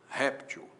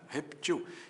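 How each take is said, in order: First: The stress is on the first syllable. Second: The stress is on the last syllable. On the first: "a palavra réptil com acento, eu vou ler réptil" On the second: "a forma reptil sem acento"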